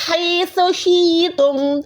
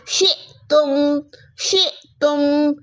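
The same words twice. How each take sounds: First: शिअतुम read slowly, the या sounded and no catch; wrong reading. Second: शिअतुम slowed with a glottal catch on the hamza; with a jerk. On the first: Teacher shows the reading to avoid, slow chant. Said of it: "इसको हम शिअतुम नहीं पढ़ते". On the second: Teacher shows the correct jerked reading of शिअतुम. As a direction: stop sharply on the hamza. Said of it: "हमजा को पढ़ते हैं झटके के साथ". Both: Shown as a demonstration.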